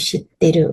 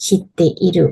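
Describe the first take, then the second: First: ชิเตรุ run together without an อิ; contracted spoken form. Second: ชิเตอิรุ with the อิ sounded separately; full uncontracted form. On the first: Teacher showing learners casual speech, ชิเตรุ with อิ dropped. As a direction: drop the อิ and say ชิเตรุ. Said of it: "ตัวอักษรอิออกไป". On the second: Teacher showing learners the full form, ชิเตอิรุ with อิ sounded. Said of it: "หรือจะพูด ชิเตอิรุ ชิเตอิรุ นี่คือมันสะดุดปาก". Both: Shown as a demonstration.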